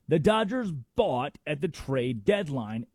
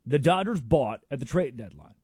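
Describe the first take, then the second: First: Slower, leaning on "Dodgers"; slow, weighty repeat. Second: Said in the usual way. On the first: Shown as a demonstration. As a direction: stress "Dodgers" and let each word land.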